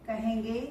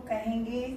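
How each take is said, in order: Both takes have the same delivery.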